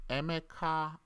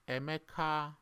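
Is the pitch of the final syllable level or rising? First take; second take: rising; rising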